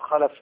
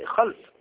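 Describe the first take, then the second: First: A short vowel separates the l and f. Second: The l and f come together with no vowel. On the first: The speaker calls it wrong. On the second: The speaker calls it right.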